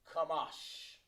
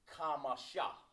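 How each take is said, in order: First: The word ends on the sh consonant. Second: The word ends with an added ah vowel. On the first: The speaker calls it right. "We need Kamash. How it sounds" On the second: The speaker calls it wrong. "if you said that with an A on it, it would be Kamasha"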